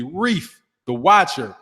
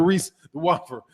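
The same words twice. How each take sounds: First: Slow, careful "Reef the Watcher", clear f ending on Reef; corrected pronunciation. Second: Muddled name, "Reese the Watcher" with an s ending on Reese; tongue-tied slip. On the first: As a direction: carefully redo "Reef the Watcher", spacing out the words. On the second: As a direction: stumble over "Reese the Watcher", hissed s where f belongs. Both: Real, not acted. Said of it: "blah, blah, blah, excuse me".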